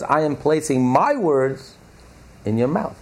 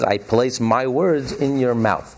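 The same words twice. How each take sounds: First: "my" leaned on, slow and deliberate; slow down and press the word "my"; stress on my. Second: Slow, even stress on words; "I place my words in your mouth" said slowly, weight on words; quoting the verse. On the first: Teacher stressing God's own words to the class, slow and emphatic. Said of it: "But the emphasis is, God says". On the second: Teacher quoting the verse to the class, slow and steady. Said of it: "But the emphasis is". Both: Shown as a demonstration.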